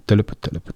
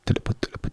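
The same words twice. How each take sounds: First: Clip-clop in a changed, sound-effect voice; voiced hoofbeats. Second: Breathy whispered clip-clop far off; whispered hoofbeats. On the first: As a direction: hooves drawing nearer. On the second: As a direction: hoofbeats whispered as if approaching from afar. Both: Shown as a demonstration. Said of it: "این صدای پای اسب".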